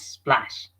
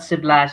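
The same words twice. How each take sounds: First: The opening consonant cluster is said without a vowel. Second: A short vowel breaks up the opening consonant cluster. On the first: The speaker calls it right. "it's splash" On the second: The speaker calls it wrong. "Not splash"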